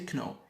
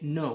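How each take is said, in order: First: The word starts with a k sound. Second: The word starts with an n sound. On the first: The speaker calls it wrong. "We don't say kno" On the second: The speaker calls it right. "Key k is silent, silent. We say no"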